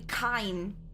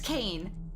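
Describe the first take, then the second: First: The vowel sounds like 'eye'. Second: The vowel sounds like 'ay'. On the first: This is how the speaker has been saying the name. "especially with the Russian accent, it would be Kine, which is how I've been saying it" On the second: This is how the voiceover says the name. "Then he says Kane"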